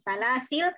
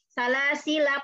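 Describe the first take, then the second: First: The word ends on the consonant, without a vowel. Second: The word ends with a short final vowel. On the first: The reciter stops at this word. "karena wakof lamnya jadi sukun" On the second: The reciter continues into the next words without stopping. "Jadi ketika wasol, salah sila pendek"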